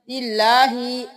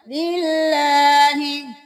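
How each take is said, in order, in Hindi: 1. अंतिम hi स्वर को खींचकर लंबा बोला जाता है। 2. अंतिम hi स्वर को जल्दी से और छोटा बोला जाता है। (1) "ऐसे नहीं करना" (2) "जल्दी से अदा करेंगे"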